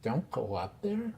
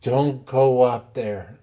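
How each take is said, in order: First: "Don't go up there?" said softly as a question; hushed, puzzled repeat of "Don't go up there?"; questioning echo. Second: Retold warning. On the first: Retold or imitated. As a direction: echo "Don't go up there?" back quietly, querying it. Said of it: "I said". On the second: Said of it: "He goes".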